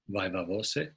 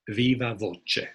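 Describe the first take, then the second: First: It is said with a common English pronunciation. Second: It is said with an Italian-style pronunciation. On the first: "it's often pronounced" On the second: "the closest we have to Latin is Italian, so it would probably be something like"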